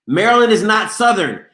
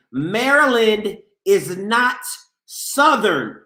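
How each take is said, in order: First: Said in the usual way. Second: "Maryland is not Southern" spelled out slowly with a pause before "Southern"; slow it right down and land each word; slow, deliberate "Maryland is not ... Southern"; slow emphatic repeat. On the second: Shown as a demonstration. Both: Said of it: "I say this again".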